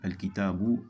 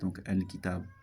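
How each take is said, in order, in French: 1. Le mot se termine par une voyelle brève finale. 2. Le mot se termine sur la consonne, sans voyelle. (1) "en continuité" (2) "si on s'arrête"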